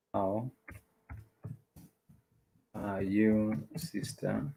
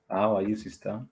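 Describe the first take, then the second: First: "How ... are you ... sister" with long pauses between; word by word. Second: Said in the usual way. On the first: Shown as a demonstration. Teacher translating a greeting for learners, word by word.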